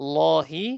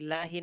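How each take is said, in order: First: The L is heavy, followed by a rounded 'o'. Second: The L is light, followed by an open 'a'. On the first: The speaker calls it right. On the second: The speaker calls it wrong. "লাহি না"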